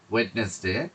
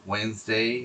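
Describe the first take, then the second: First: The word is said as Wed-nes-day, d sounded. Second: The word is said as Wensday, d silent. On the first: The speaker calls it wrong. "ওয়েডনেসডে বলাটা ঠিক হবে না" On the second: The speaker calls it right. "উচ্চারণটা এটা ওয়েন্সডেই পড়তে হবে"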